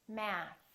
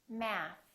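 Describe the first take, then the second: The two takes are said the same way.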